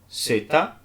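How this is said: It begins with an s sound, as in sun. This is how it is said in the other countries. "para os demais países"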